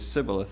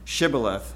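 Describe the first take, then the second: First: The word begins with an s sound. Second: The word begins with an sh sound. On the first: The speaker calls it wrong. "they just could only say Sibboleth" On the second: The speaker calls it right. "the SH sound"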